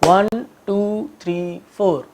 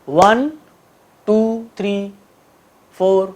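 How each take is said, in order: First: The numbers are counted at an even, steady pace. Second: The numbers are counted at an uneven, irregular pace. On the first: The speaker calls it right. "एक बराबर speed में इसको करना है" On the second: The speaker calls it wrong. "गलत तरीके से भी करके दिखाता हूं"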